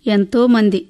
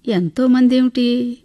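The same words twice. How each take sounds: First: A brief, falling "ఎంతో మంది" with stress on ఎంతో; the old mother cuts the answer short with a terse "ఎంతో మంది"; curt reply. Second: Slow, questioning "ఎంతో మంది ఏమిటి?" with the weight on మంది; puzzled question. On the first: Old mother answers the narrator briefly, a curt falling "ఎంతో మంది". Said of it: "క్లుప్తంగా చెప్పింది". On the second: Narrator, not understanding her answer, asks slowly and puzzled. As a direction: echo her words back slowly, puzzled. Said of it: "అర్థం కాలేదు నాకు". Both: A narrator's reading.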